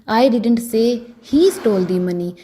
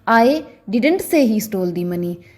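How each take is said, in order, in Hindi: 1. ज़ोर 'he' शब्द पर है। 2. ज़ोर 'didn't' शब्द पर है। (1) "अगर मैं ही पर जोर डालकर बोलूंगी" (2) "अगर मैं डिडंट पर स्ट्रेस डालकर बोलूं"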